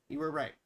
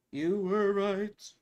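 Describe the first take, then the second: First: Said in the usual way. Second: Very slow, stretched-out words; drawn-out concession. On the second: Real, not acted. Host conceding to a viewer, slowly drawn out. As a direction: stretch out each word of the concession.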